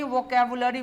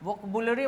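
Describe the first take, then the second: First: The second vowel is a full 'a' sound. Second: The second vowel is a reduced 'uh' sound. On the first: The speaker calls it right. "Word meaning को ही वोकैबुलरी बोला जाता है।" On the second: The speaker calls it wrong. "वोकबुलरी मत बोल देना"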